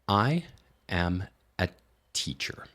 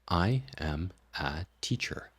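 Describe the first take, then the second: First: Very slow, with every word fully separated. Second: Faster, with the words still somewhat separated. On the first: "each of those words is being completely compartmentalized, and it sounds really awkward at that speed" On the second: "you can speed this up"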